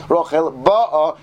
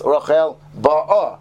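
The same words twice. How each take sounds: First: "ba'a" drawn out slowly, stressed to mean already arrived; stress for "has arrived". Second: "ba'a" drawn out slowly, stressed to mean she is coming. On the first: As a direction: stretch "ba'a" as already here. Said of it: "as opposed to Rachel has already arrived". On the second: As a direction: stretch "ba'a" as still on her way. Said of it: "the accent of the word can actually change the meaning". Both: Shown as a demonstration.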